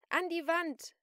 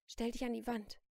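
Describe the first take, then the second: First: High, loud shouted command; shouting. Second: Raised, firm command; firm order. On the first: Celine repeats her order to the shopkeeper, shouting. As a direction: yell the order angrily. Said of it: "schrie Celine". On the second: Celine orders the shopkeeper to move, firm command. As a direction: order them firmly, short of a shout. First order, before she shouts. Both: A narrator's reading.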